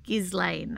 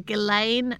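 First: The S in the name is pronounced. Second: The S in the name is silent. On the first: The speaker calls it wrong. "not Ghislaine" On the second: The speaker calls it right. "Definitely Ghislaine"

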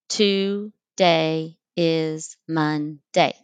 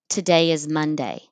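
First: It is split into separate syllables. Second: It is run together as one word.

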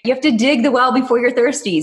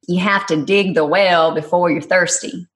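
First: It is said in her plain accent. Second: It is said in a Texas accent.

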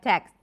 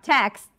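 First: Some final consonants are dropped from the cluster. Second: The full final consonant cluster is pronounced. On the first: "you might end up saying something like text" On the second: "So if you have texts"

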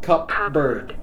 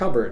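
First: The P sound is clearly pronounced. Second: The P sound is silent. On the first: The speaker calls it wrong. "not cupbird" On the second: The speaker calls it right. "the P should be silent"

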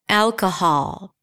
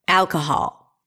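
First: The last syllable has a full, open 'ah' vowel. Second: The last syllable has a full, open 'ah' vowel.

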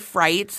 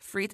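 First: The word is pronounced in a non-French, anglicized way. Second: The word is pronounced the way French speakers say it. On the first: The speaker calls it wrong. "I intentionally, consistently mess up French. Like, I'll say frites" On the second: The speaker calls it right. "instead of frites"

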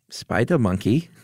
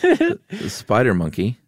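First: It is said in a put-on German accent. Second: It is said in a plain American accent.

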